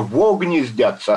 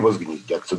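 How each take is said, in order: First: It is said as two words with no z sound. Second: It is said as one word with a z sound. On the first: The speaker calls it right. "написано же" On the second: The speaker calls it wrong. "а ты возгнездятся"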